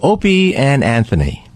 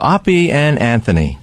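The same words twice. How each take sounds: First: The first vowel is long, as in 'open'. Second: The first vowel is short, as in 'hot'. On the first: The speaker calls it right. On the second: The speaker calls it wrong.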